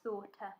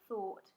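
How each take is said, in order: First: An extra schwa syllable is added after the t. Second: The word ends cleanly on the t sound.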